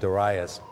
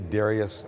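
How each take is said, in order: First: The name is said the older, traditional way. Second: The name is said the common, modern way. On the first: This is the traditional way to say it. "I'm the old-fashioned Darius" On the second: This is how most people say it. "Many people say Darius"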